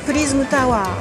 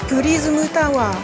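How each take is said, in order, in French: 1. Elle est dite plus vite. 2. Elle est dite plus lentement.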